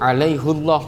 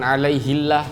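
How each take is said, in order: First: The vowel before Allah is a heavy u. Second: The vowel before Allah is a light i. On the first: The promise it refers to carries a deep, weighty meaning. "Haknya pakai dhammah. Berat diucapkan" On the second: It would sound light and carry no special weight. "kalau alaihillah itu ringan di lisan"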